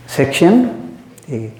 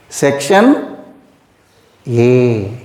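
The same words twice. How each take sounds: First: "Section A" said slowly, falling and weighted on "Section"; drawn-out "Section A" stressing "Section"; slow emphatic repeat. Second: Said in the usual way. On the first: Shown as a demonstration. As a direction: lean on "Section" and let it fall.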